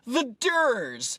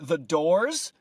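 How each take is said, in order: First: The vowel is a mushy 'er' sound. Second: The vowel is a clear 'or' sound. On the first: The speaker calls it wrong. "pronouncing them wrong" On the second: The speaker calls it right. "instead of The Doors"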